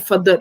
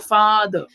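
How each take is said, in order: First: The a is not an open 'ah' vowel. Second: The a is an open 'ah' vowel. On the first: The speaker calls it wrong. "We don't say father" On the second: The speaker calls it right. "We say father"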